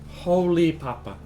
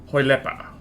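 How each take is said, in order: First: It is said as two separate words. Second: It is said as one blended word. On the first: The speaker calls it wrong. "how do you pronounce it then?" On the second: The speaker calls it right. "Is that how you pronounce your username?"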